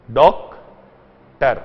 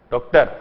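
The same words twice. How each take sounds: First: doctor broken in two, a long pause between डॉक and टर; split into syllables. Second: Said in the usual way. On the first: Shown as a demonstration. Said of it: "दो parts में divide हुआ". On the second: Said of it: "जैसे doctor बोलकर देखिए".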